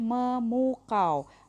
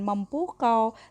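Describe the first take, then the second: First: No p sound follows the m sound. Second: A p sound follows the m sound. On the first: The speaker calls it right. "tapi memukau" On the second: The speaker calls it wrong. "bukan mempukau"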